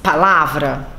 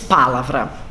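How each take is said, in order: First: The stress falls on the second syllable. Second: The stress falls on another syllable. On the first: The speaker calls it right. "você diz palavra" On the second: The speaker calls it wrong. "você não diz palavra"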